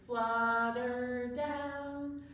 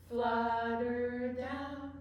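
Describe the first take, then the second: No difference in how they are said.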